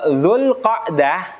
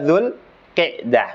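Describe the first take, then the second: First: The vowel after 'q' is an open 'a'. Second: The vowel after 'q' is a close 'i'. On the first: The speaker calls it right. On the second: The speaker calls it wrong.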